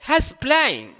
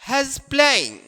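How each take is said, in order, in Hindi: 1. "He is" को छोटा करके एक ही सिलेबल में बोला जाता है। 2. "He is" को छोटा करके एक ही सिलेबल में बोला जाता है।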